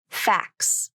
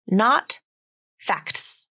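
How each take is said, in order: First: The T sound in facts is dropped. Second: The T sound in facts is pronounced. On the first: The speaker calls it right. "it's the rule of three that's dictating how this word is pronounced" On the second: The speaker calls it wrong.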